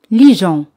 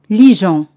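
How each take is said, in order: No difference in how they are said.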